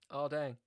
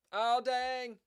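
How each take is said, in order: First: Said in the usual way. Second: A high, hammed-up groan of dismay; mock dismay. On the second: Losing at chess, a hammed-up cry of dismay. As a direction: overplay the letdown like a cartoon loser.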